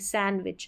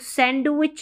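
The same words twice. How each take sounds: First: The d sound is silent in the word. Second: The d sound is pronounced in the word. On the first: The speaker calls it right. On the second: The speaker calls it wrong.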